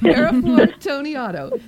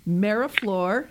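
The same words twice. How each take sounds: First: Slow, higher, louder Italian flourish on the name; hammed-up Italian accent. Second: Said in the usual way. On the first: Host announcing the guest's name in a hammed-up Italian accent. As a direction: stretch out the name with a big playful Italian accent. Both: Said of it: "Now I'm gonna do it in my Italian accent".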